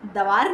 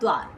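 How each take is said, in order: First: A short vowel separates the d and v. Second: The d joins the v with no vowel. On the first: The speaker calls it wrong. "दवार नहीं" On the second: The speaker calls it right. "हाफ यानी कि थोड़ा सा कम sound"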